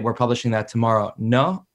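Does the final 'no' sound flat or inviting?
inviting. The final no is warm and inviting.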